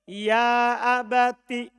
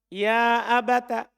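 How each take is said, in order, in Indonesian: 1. Suku kata terakhir berakhir dengan vokal 'i'. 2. Suku kata terakhir berakhir dengan vokal 'a'. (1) "Semuanya baca kasro" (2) "di patah ta'nya"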